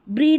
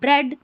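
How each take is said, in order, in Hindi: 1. इस स्वर की ध्वनि लंबी ee है। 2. इस स्वर की ध्वनि छोटी e है। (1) "ऐसे नहीं पढ़ेंगे" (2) "यहाँ पर ए साउंड रहता है"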